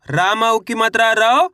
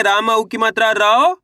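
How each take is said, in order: First: रौ with a rising pull, syllable by syllable; spelling out the sound. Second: रौ said rising as the teacher's model; walk the class through रा plus औ into रौ; spelling out the sound. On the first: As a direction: spell out रा plus औ to make रौ. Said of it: "चलिए देखिए किस तरीके से है". (रौ को खींचकर उठते स्वर में) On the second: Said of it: "तो अपन रा को कैसे पढ़ेंगे?". (रौ को उठते स्वर में सिखाते हुए) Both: Shown as a demonstration.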